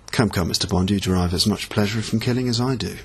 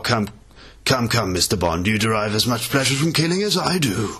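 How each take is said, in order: First: The line is delivered quiet and restrained. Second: The line is delivered big and theatrical. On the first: "he's trying to do it more understated, so... a bit more serious, a bit more real" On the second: "instead of making it really big and obvious, like"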